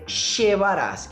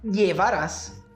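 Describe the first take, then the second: First: The word begins with a sh sound. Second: The word begins with a y sound. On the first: "uma terceira pronúncia com som de X" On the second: "com som de I"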